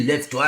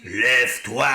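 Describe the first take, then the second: First: Soupçon de génie, voix à peine changée; génie malfaisant esquissé, presque normal; grosse voix de génie. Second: Génie malfaisant, ordre sec et menaçant; grosse voix de génie. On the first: (légère voix de génie) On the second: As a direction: ordonne comme un génie maléfique. (grosse voix de génie menaçant) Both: A narrator's reading. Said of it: "avec sa grosse voix".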